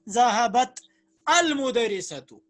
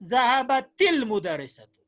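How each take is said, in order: First: The words are separated with a break between them. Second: The words are joined by a linking vowel. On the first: The speaker calls it wrong. "Break करके पढ़ना होगा। ... वो सही तरीका नहीं है।" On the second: The speaker calls it right. "के बजाय पढ़ेंगे"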